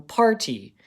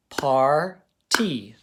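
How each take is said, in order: First: Said in the usual way. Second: "par-T" as two separate beats, louder; split into syllables. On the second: Shown as a demonstration. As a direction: say "par-T" with a clear break between par and tee. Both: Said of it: "first clap it and then tap each part".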